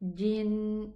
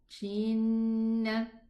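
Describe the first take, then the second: First: The first sound is a firm, hard j. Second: The first sound is soft, close to sh. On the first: The speaker calls it right. "from the middle part of the tongue" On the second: The speaker calls it wrong. "Wrong pronunciation"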